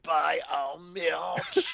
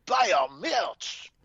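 First: Put-on very slow, drawn-out French accent, rising. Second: Put-on high, slow French accent, falling; slow hammy French shout-out. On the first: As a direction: stretch each word in a hammy French accent. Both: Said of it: "did I turn on the French version of it?".

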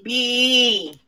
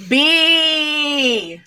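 First: Said in the usual way. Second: B barked out short and forceful; aggressive B. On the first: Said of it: "That better?". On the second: Shown as a demonstration. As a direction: say the letter B hard and punchy.

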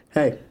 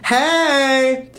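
First: Said in the usual way. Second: Eager greeting. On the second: Pretend. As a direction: greet him with big energy. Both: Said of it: "Energy not matched".

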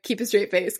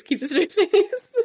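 First: Said in the usual way. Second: Higher, louder, breaking into a laugh. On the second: Pretend. Friend joking about a player on camera, laughing. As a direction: crack up partway through the words.

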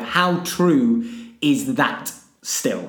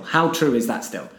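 First: Drawn-out words; slow each word right down; slow and deliberate. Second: Said in the usual way. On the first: Shown as a demonstration. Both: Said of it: "I would like you to rank".

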